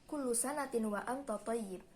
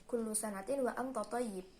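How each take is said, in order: The two takes are said the same way.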